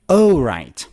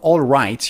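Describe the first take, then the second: First: The first word sounds like "oh" without L. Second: The first word is a full "all" with L. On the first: The speaker calls it right. "you should say, oh right" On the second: The speaker calls it wrong. "instead of all right"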